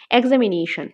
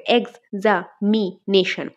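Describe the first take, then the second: First: Said in the usual way. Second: "examination" very slowly in four pieces, ex-a-mi-nation; syllable by syllable. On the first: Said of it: "এক্সামিনেশনকে আমরা part করলে". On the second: Shown as a demonstration. Teacher dividing the word into four, "examination" said syllable by syllable. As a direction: break "examination" apart with clear pauses between the parts. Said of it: "এক্সামিনেশনকে আমরা part করলে কি হবে".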